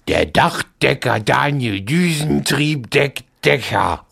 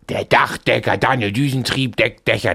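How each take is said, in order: First: The sentence is said slowly. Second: The sentence is said fast.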